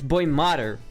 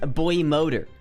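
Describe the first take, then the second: First: The second word sounds like 'modder'. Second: The second word sounds like 'motor'. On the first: This is how the speaker reads it in their head. "It's boy modder now. That's the way I fucking read it in my mind" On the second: This is the intended pronunciation. "it's supposed to be pronounced boy motor"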